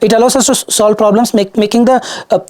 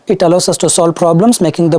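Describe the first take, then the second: First: It is spoken with restarts and filled pauses. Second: It is spoken smoothly without hesitation. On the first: The speaker calls it wrong. "What if you start speaking like this?" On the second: The speaker calls it right. "Crisp clarity, pronunciation, fluency, everything is precise"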